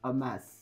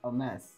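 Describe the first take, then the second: Both takes have the same delivery.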